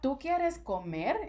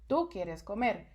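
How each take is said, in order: First: It has question intonation. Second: It has statement intonation.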